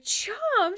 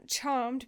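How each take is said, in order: First: CHARMED blurted high and loud; high, startled "Charmed"; shocked echo. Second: Said in the usual way. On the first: Acted. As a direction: exclaim "Charmed" in disbelief. Jin echoes in shock.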